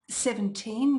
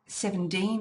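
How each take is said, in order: First: A clear T follows the N. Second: A D sound follows the N. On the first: "with a T" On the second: "with a D"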